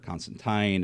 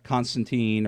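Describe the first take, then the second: First: The name is said the British way. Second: The name is said the non-British way.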